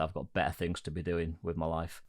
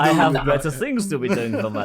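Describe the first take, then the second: First: It is said in his own English accent. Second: It is said in a put-on German accent.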